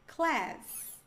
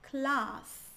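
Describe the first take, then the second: First: It is said with an American accent. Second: It is said with a British accent. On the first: "Um americano diria" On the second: "um britânico diria"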